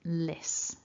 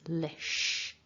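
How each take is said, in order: First: The syllable ends with an s sound. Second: The syllable ends with an sh sound. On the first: The speaker calls it wrong. "It's not lis" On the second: The speaker calls it right. "it's lish"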